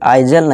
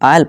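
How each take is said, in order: First: The s is sounded as a z. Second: The s is silent, no z sound. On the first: The speaker calls it wrong. "आइजल नहीं" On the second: The speaker calls it right. "आयल पढ़ेंगे"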